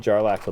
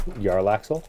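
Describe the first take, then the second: First: The name starts with a hard J sound. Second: The name starts with a soft, non-hard J sound. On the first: Other people say it this way. The speaker calls it wrong. "I've heard people pronounce it Jarlaxle, but I don't think it's with a hard J" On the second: This is the speaker's preferred pronunciation. The speaker calls it right. "I think it's Jarlaxle"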